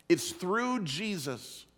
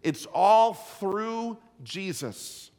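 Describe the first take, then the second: First: "through" stressed, slow and falling. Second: "all" drawn out slow and strong, "through Jesus" falling; preacher's slow emphatic "It's all through Jesus"; stress on through Jesus. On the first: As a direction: press the word "through" gently, slowly. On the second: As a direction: lean hard on "all", slowly. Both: Shown as a demonstration. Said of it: "here's the two words".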